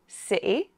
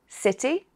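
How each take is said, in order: First: The middle t is a glottal stop. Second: The middle t is a clear t sound. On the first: "with a glottal stop" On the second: "With a T"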